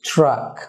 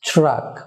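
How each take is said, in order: First: It begins with a ch-like sound. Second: The same.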